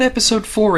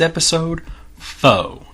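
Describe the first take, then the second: First: The last word ends with a clear r sound. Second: The last word ends without an r sound. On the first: The speaker calls it wrong. "It's not Episode four" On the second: The speaker calls it right. "it's Episode Foe. Gotta say it that way"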